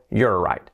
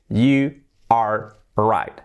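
First: "You're right" with "You're" run into one syllable; "You're right", contracted and compact; contracted form. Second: YOU ARE RIGHT slowly, with "You" and "are" as separate words; "You are right" in full, drawn out, "are" sounded on its own; full uncontracted form. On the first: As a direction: merge YOU and ARE into a single "You're". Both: Shown as a demonstration. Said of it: "O contraído".

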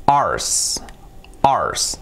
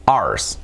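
First: Whispered demo. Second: Said in the usual way. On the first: Shown as a demonstration. Teacher modelling "Ours" for students, whispered. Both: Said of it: "Así sería".

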